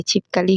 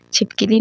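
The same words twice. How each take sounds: First: छिपकली said as "chipkali"; "chip-ka-li" for छिपकली; correct pronunciation. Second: छिपकली said as "chipkili"; "chip-ki-li" for छिपकली; wrong pronunciation. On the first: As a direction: say छिपकली with a short a after the k. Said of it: "होता है". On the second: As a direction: say छिपकली with an i after the k. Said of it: "नहीं होता है भाई". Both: Shown as a demonstration.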